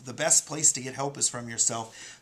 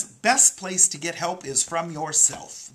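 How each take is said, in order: First: Said in the usual way. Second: Best place to get help is from yourself, slow, high and loud; talking point emphasis. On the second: Shown as a demonstration. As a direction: lay out each word of best place to get help is from yourself slowly and loudly. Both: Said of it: "The talking point of the week".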